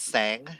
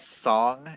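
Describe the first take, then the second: First: The vowel sounds like the one in 'rang'. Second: The vowel sounds like the one in 'long'. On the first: The speaker calls it right. "but it's actually pronounced sang" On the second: The speaker calls it wrong. "They pronounce it as song in the book, in the audiobook"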